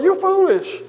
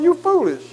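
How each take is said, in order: First: "You foolish" pitched up high in scorn, "You" lifted; escalated jeer, "You" hit high; mocking scorn, bigger. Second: Mocking scorn. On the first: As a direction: scoff "You foolish" from way up high, harder this time. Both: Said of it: "he tried to get them to say".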